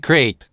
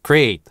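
No difference in how they are said.

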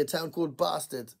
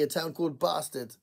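First: It is said in a southern English accent. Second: The same.

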